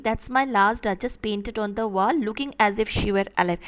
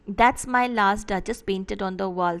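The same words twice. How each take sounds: First: "wall" rises and runs straight into "looking as if she were alive" without a stop; flowing enjambed reading. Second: "That's my last Duchess painted on the wall" slow, every second beat marked, line end-stopped; metrical stress reading. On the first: Teacher shows students how the sentence flows across the line, with no stop at "wall". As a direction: carry "wall" up and on into the next line. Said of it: "And the enjambment meaning". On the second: Teacher scans the line for students to find the stresses, slow and even. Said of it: "put the stress marks".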